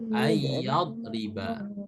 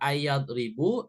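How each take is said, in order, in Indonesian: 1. Kata itu diakhiri dengan vokal a. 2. Kata itu diakhiri dengan vokal u. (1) "harokatnya harus fathah" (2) "nggak boleh domah"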